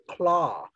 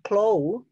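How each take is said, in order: First: The vowel is a plain open aw sound. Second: The vowel glides toward an oo sound. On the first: The speaker calls it right. "but claw" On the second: The speaker calls it wrong. "not claw"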